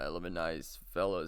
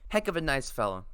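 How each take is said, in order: First: It is said in an old man's voice. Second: It is said in the reader's normal voice.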